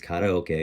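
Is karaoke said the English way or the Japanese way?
Japanese. It is said with Japanese-style pronunciation. The speaker calls it right. "it's karaoke"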